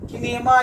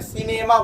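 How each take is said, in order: First: The word begins with a k sound. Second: The word begins with an s sound. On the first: The speaker calls it wrong. "किनेमा या चिनेमा नहीं बोलते हैं" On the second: The speaker calls it right. "सिनेमा बोलते हैं"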